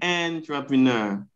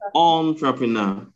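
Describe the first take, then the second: First: The first vowel is not a short O sound. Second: The first vowel is a short O sound. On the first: The speaker calls it wrong. "So you do not say entrepreneur" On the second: The speaker calls it right. "But you say entrepreneur"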